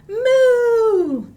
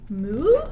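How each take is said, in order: First: It sounds excited, like an exclamation. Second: It sounds questioning, like asking something.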